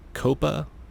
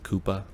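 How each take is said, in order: First: The word does not sound like Koopa. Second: The word sounds like Koopa. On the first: "is one way of pronouncing it" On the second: "I'm kind of hoping it's Koopa ... for anybody that plays Mario"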